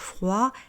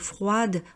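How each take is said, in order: First: The final consonant is silent. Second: The final consonant is pronounced. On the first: The speaker calls it right. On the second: The speaker calls it wrong.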